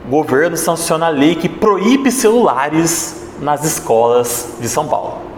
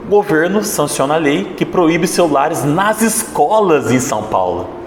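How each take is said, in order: First: The emphasis falls on proíbe celulares. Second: The emphasis falls on escolas em São Paulo. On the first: The phones are the protagonist. "Quando eu dei ênfase na palavra proíbe celulares" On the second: The schools in São Paulo are the protagonist. "Agora vamos dar ênfase no terceiro ponto"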